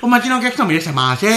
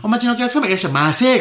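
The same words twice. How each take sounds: First: "お待ちのお客様" in a warped sing-song tune; mock the clerk's odd welcome melody, laughing; weird welcome intonation. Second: High sing-song "いらっしゃいませ"; chirpy cashier welcome, pitched up; bright loud shop welcome. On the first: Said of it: "Aメロの部分もまあまあ気持ち悪いよ、イントネーション". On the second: Retold or imitated. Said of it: "めっちゃ腹立つやん".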